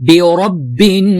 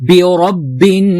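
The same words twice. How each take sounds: Both takes have the same delivery.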